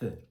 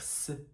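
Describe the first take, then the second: First: The sound is a lisped th. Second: The sound is a hissing s. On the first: The speaker calls it right. "faire sortir l'air de la bouche en le bloquant avec la langue" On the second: The speaker calls it wrong. "Au lieu de dire s"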